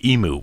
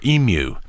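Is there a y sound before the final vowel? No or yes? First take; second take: no; yes. First: No y sound comes before the final vowel. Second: A y sound comes before the final vowel. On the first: The speaker calls it wrong. "instead of emu" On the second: The speaker calls it right. "so you have that little Y sound in there"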